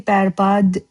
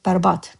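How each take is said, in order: First: The word ends with a voiced D sound. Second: The word ends with a voiceless T sound. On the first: "when you say berbad, you write it berbad" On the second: "you will often hear it berbat"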